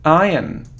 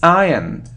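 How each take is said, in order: The two takes are said the same way.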